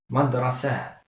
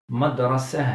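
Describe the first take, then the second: No difference in how they are said.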